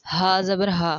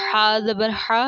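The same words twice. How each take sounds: First: Light, open h in ہا; distinct letter articulation. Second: Loud, constricted throat h in حا; distinct letter articulation. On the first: Teacher showing learners similar letters, plain light h. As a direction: say ہا as an easy exhaled h. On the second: Teacher showing learners similar letters, strong pharyngeal h. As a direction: push حا from the middle of the throat. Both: Shown as a demonstration. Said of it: "ان کی ادائیگی بالکل".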